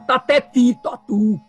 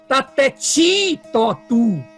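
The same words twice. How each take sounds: First: The t before i stays a plain dental t. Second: The t before i sounds palatal, like ch. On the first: This is the northeastern Brazilian way, closer to Sanskrit. The speaker calls it right. "No Nordeste, eles falam tateti totu, que é muito mais próximo do sânscrito" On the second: This is the everyday southern Brazilian way. The speaker calls it wrong. "aqui no Sul a gente fala"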